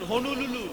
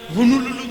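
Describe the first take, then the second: First: The word is said with an n sound near the start. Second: The word is said with a different, sloppier sound pattern. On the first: The speaker calls it right. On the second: The speaker calls it wrong.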